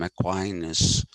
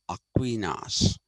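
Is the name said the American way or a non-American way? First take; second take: American; non-American. First: The name is said with an American pronunciation. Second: The name is said with a non-American pronunciation. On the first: The speaker calls it wrong. "like the Americans do. They call him Aquinas" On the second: The speaker calls it right. "he's actually Aquinas"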